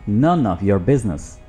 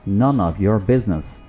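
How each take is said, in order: The two takes are said the same way.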